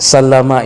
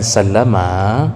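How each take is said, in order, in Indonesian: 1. Vokal setelah l itu pendek. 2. Vokal setelah l dibaca panjang. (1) "itu tidak panjang" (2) "Kalau kita panjangkan sallama"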